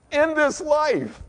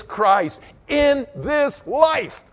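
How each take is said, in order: First: Higher, slow repeat; slow echo. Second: Drawn out, stretched slowly; slow emphasis. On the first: Preacher echoing his point, slow and high. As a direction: repeat it slowly, lifting the pitch. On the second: Preacher to congregation, slow and drawn out. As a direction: lean on each word slowly. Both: Real, not acted.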